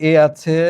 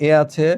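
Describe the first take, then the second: Both takes have the same delivery.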